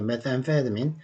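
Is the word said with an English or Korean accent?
English. It is said with English-style pronunciation. "원래는 영어 발음으로는 메타암페타민입니다"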